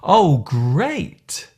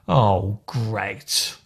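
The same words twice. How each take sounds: First: It is said in a positive, pleased tone. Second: It is said in a negative, displeased tone. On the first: The speaker is pleased. "is a positive phrase" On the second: The speaker is annoyed. "when said with a negative tone"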